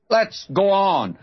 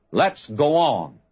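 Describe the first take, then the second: First: Let's go on pitched higher, a stirring push; rising exhortation. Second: Said in the usual way. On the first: Real, not acted. Preacher urging his congregation onward, higher rousing call. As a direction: repeat it higher, urging the crowd on.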